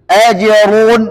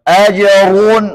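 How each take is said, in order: The two takes are said the same way.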